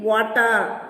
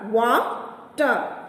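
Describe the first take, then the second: First: Said in the usual way. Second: "Water" split into two beats, Wa, ter; syllable by syllable. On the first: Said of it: "Divide each word". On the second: Shown as a demonstration. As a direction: break "Water" after Wa, pause, then ter. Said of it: "there are two syllables".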